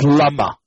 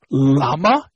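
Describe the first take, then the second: First: Lama said as la-MA; last-syllable stress. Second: Lama said as LA-ma; first-syllable stress. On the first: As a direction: lean on the final syllable of lama. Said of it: "it's lama". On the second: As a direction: lean on the opening syllable of lama. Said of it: "so it's not lama". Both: Shown as a demonstration.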